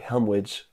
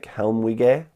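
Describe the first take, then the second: First: The name follows the speaker's guessed reading. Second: The name follows the Japanese katakana reading. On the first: "I'm guessing this should be Helmwich" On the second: "the Japanese katakana is like Helmwige"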